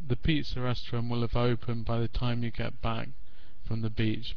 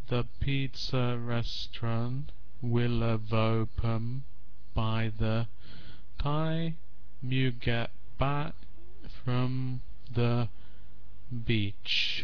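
First: It is read at normal connected pace. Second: It is read slowly, word by word. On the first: The speaker calls it right. "But if I speak normally" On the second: The speaker calls it wrong. "It sounds really funny if I read it slowly"

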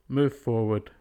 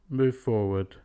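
No difference in how they are said.

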